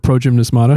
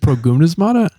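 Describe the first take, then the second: First: The g is a soft j sound. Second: The g is a hard g sound. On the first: The speaker calls it wrong. "Like ninety-five percent of people pronounce it that way" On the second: The speaker calls it right. "in Greek, there is no j sound"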